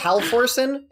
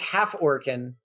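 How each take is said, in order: First: The name is run together as halforsen. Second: The name is said as half plus orcan. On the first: The speaker calls it wrong. "I thought it was Halforsen, and I feel like such an idiot" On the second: The speaker calls it right. "her last name is Half Orcan"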